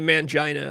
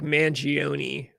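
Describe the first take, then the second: First: The name ends with a 'na' sound. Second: The name ends with an 'oh-nee' sound. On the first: The speaker calls it wrong. "it's not actually Mangina" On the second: The speaker calls it right. "I think it's, like, Mangione"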